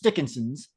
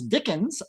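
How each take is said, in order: First: The name ends with an extra syllable. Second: The name ends with no extra syllable. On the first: The speaker calls it wrong. "you sound like you're saying Dickinson's" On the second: The speaker calls it right. "I'll pronounce it the other way"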